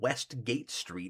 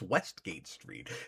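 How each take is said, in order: First: The stress falls on gate. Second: The stress falls on West. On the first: The speaker calls it wrong. "It's not like gate" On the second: The speaker calls it right. "it's the west version as opposed to the east version"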